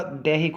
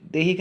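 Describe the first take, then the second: First: Said in the usual way. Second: देहिक said "dehik", with a close e; narrow "de" start. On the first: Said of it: "होगा". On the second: Shown as a demonstration. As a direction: start देहिक on "de" rather than "dai". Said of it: "नहीं होगा".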